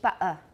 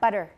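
First: The middle consonant is a glottal stop. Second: The middle consonant is a quick tap. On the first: "In Cockney, it would be butter" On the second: "I have a tap"

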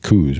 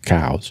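First: The vowel sounds like the one in 'coo'. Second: The vowel sounds like the one in 'cow'. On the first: This is the popular pronunciation. "Everyone calls them coos" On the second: This is the technically correct pronunciation. "technically it's pronounced cows"

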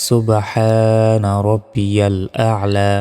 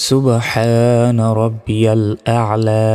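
Both takes have the same delivery.

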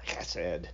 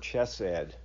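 First: The word is pronounced with Hebrew sounds. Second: The word is pronounced with English sounds.

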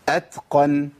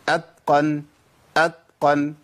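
First: The t is voiceless with audible breath. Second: The t is voiced, sounding close to d. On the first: The speaker calls it right. "اسمعوا الهمس" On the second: The speaker calls it wrong. "كتير ناس يقول ايه؟ ... حرف بين الاثنين، قريب من الدال قوي"

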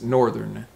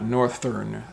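First: The 'th' is voiced, as in 'there'. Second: The 'th' is voiceless, as in 'north'. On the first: The speaker calls it right. "it's northern" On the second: The speaker calls it wrong. "So it's not northern, thern"

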